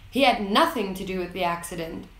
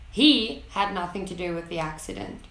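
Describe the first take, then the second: First: Had said stronger, rest of the line lighter; stress on had. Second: He punched as the key word, falling after; stress on He. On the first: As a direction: hit the word had, the rest carries on. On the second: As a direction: lean hard on the first word He. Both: Shown as a demonstration. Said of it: "listen for stressed words".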